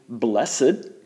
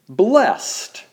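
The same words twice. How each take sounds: First: It uses the old pronunciation of the word. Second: It uses the modern pronunciation of the word.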